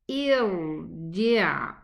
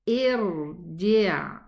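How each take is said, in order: No difference in how they are said.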